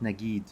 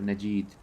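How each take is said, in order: First: The middle consonant is a hard G. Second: The middle consonant is a J sound. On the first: It follows Egyptian usage. The speaker calls it wrong. "not not with a G" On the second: It is the official pronunciation. The speaker calls it right. "It's it should be a J"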